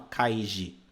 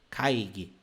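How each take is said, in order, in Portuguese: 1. A segunda consoante é um som de j suave. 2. A segunda consoante é um som de g forte. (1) "você não fala kaiji" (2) "é lido gi"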